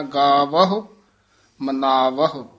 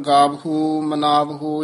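First: ਗਾਵਹੁ with only a light, barely heard ਹੁ; subtle ending. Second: ਗਾਵਹੁ with a loud, full ਹੁ ending, the wrong way; wrong heavy ending. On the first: Teacher showing the right light ਹੁ ending. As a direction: let the ਹੁ in ਮਨਾਵਹੁ just brush past. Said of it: "ਸੂਖਮ ਜਿਹਾ ਉਚਾਰਨ ਕਰਨਾ ਹੈ". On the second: Teacher showing the wrong heavy ਹੁ ending. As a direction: hit the ਹੁ in ਮਨਾਵਹੁ hard, as not to say it. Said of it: "ਇਸ ਤਰ੍ਹਾਂ ਨਹੀਂ ਕਹਿਣਾ". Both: Shown as a demonstration.

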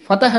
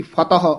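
First: ਫਤਹ ending in "-eh"; fronted e ending on ਫਤਹ; fateh. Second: ਫਤਹ ending in neutral "-aho"; fatah. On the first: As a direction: say ਫਤਹ as "fatahe". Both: Shown as a demonstration. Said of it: "ਫਤਹ ਉਚਾਰਨ ਕਰਨਾ".

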